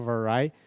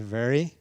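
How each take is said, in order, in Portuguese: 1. A primeira vogal é diferente da vogal de 'very'. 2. A primeira vogal é igual à vogal de 'very'. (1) "vamos tomar cuidado aí para não falar vary" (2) "a pronúncia não é e diferente de very"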